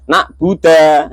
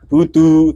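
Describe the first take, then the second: First: The last syllable ends in an a vowel. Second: The last syllable ends in an u vowel. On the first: The speaker calls it wrong. "malah dibaca nak buddha" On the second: The speaker calls it right. "harusnya iya karena budu"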